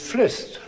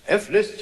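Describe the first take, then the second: First: The F is merged into one word. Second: The F is said as a separate letter. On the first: The speaker calls it right. "is Flist" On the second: The speaker calls it wrong. "You don't say M Mozart"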